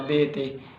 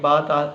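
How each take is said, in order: First: The letters are said with an Urdu accent. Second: The letters are said with an Arabic accent.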